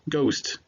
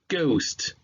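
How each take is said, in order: First: It is said at normal speed. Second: It is said slowly and drawn out.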